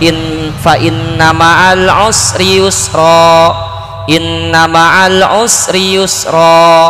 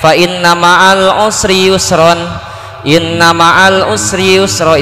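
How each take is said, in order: First: The first phrase ends in a long vowel, then a break. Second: The first phrase ends in -n, then a breath. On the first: The speaker calls it right. "kalau diputus harus di majiwad" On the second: The speaker calls it wrong. "itu salah bacaannya. Ka- diputus napas"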